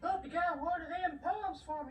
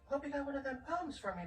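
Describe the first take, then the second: First: It is read in a Southern accent. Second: It is read in a plain accent.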